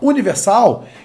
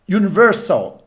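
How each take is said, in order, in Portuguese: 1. Ela é dita com sons e tonicidade portugueses. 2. Ela é dita com sons e tonicidade ingleses. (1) "você fala Universal, ele não vai entender" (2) "se você falar Universal, ele vai entender"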